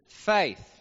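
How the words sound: It is drawn out with a Texan twang.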